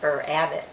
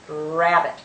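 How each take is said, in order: First: An 'er' vowel is added before the r. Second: The word starts directly with a growled r. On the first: The speaker calls it wrong. "We don't say ... er abbot" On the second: The speaker calls it right. "The letter R actually growls at you"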